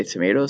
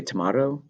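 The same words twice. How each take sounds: First: "tomato" with a long AY in the middle, tuh-MAY-toh; "tomato" the American way, middle vowel as in "may". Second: "tomato" with an open AH in the middle, tuh-MAH-toh; "tomato" the British way, middle vowel as in "father". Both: Shown as a demonstration. Contrasts two regional pronunciations.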